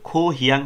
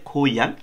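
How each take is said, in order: First: The middle h sound is clearly pronounced. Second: The middle h sound is dropped. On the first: The speaker calls it wrong. "এটার উচ্চারণ কিন্তু খো হিয়াং হয় না" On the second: The speaker calls it right. "কোরিয়ানরা উচ্চারণ করে খোয়াং"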